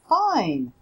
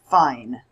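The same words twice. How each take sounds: First: The word is said with a higher pitch. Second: The word is said with a low, flat pitch. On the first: The speaker really is fine. The speaker calls it right. "my pitch was a little bit higher" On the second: The speaker is not really fine. The speaker calls it wrong. "The way I said that word does not lead the listener to believe that I really am fine"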